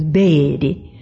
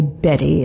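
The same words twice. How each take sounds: First: Betty drawn out slowly in a Southern accent. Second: Said in the usual way. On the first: Shown as a demonstration. Showing how "Betty" becomes drawled in a Southern accent. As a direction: stretch the first vowel of Betty, Southern style. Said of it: "with that Southern accent, it becomes Betty". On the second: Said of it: "she called me Betty, as everybody did".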